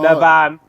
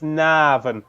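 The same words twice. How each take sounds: First: The vowel after the N is short. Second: The vowel after the N is drawn out long. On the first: The speaker calls it wrong. "So don't go" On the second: The speaker calls it right. "put in as many A's between the N and the V as you can. So it's"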